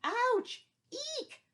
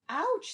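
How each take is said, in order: First: Very high, loud hammed-up squeal; big squeal of pain. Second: High, loud yelp; a sudden hammed-up ouch; yelp of pain. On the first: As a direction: overact the goat's bitten yelp. Ant keeps biting goat. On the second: Ant bites goat's ear.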